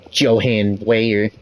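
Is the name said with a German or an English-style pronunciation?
English. The name is said with English-style pronunciation. The speaker calls it wrong. "I'm not gonna go be like"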